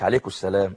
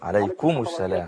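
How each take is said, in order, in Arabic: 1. m في الآخر مطموس وبالكاد يُسمع. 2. يُنطق m في الآخر بوضوح. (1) "مش عليكم السلام" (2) "يظهر الميم لو سمحت"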